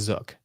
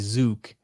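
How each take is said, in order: First: The vowel is short, as in 'book'. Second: The vowel is long, as in 'boot'. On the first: The speaker calls it right. "I say it rhymes with book and look and took" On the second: The speaker calls it wrong. "to pronounce it as like bazooka"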